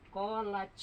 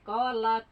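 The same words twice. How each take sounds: First: "kolaj" ending in a j sound instead of t, shown as the mistake; deliberately wrong "kolaj" to show the error. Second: "kolat" ending in a clear, bounced t, the correct form. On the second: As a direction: say "kolat" right, with the t stopped and released. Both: Shown as a demonstration. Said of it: "Salah, harusnya".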